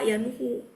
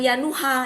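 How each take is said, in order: First: The name ends with an 'u' vowel. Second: The name ends with an 'a' vowel. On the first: The speaker calls it right. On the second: The speaker calls it wrong. "bukan ya Nuha"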